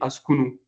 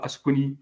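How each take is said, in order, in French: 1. Le mot se termine par la voyelle u. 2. Le mot se termine par la voyelle i. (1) "je dis Askunu" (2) "c'est pas Askuni"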